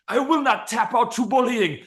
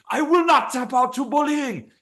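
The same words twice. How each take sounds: First: Much higher, straining voice; forced out while the arm is being bent; strained fighter in an arm bar. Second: Much higher, drawn out and pushed harder; higher, slower strained vow. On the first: Fighter in an arm bar, vowing in a high strained voice. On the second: Fighter in an arm bar, vowing higher and slower. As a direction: squeeze it out even higher as the arm gives. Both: Pretend. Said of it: "he's like".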